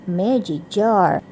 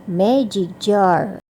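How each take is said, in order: Both takes have the same delivery.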